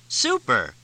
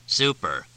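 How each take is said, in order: First: Bright, giddy burst of delight. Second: Grim. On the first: Cindy clapping, thrilled at the joke, delighted cry. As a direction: cheer it out, tickled. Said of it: "Cindy began laughing again". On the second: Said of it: "Fletch quoted grimly". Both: A narrator's reading.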